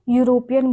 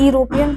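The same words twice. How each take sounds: First: The word begins with a y sound. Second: The word begins with a plain vowel sound. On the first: The speaker calls it right. "क्या बोलते हैं हम लोग, यूरोपियन बोलते हैं। किसका sound आता है, यू का आता है" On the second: The speaker calls it wrong. "यूरोपियन तो नहीं बोलते"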